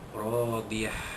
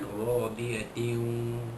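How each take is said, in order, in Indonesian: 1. Kata ini berakhir dengan bunyi h yang lembut. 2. Kata ini berakhir dengan bunyi -tin yang penuh. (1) "itu kalau bunyi diwakafkan" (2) "Kalau bunyi diteruskan"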